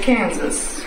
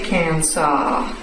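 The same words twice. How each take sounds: First: The word ends with a 'sus' sound. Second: The word ends with a 'saw' sound. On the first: The speaker calls it right. "we say Kansas" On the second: The speaker calls it wrong. "We don't say Kansas"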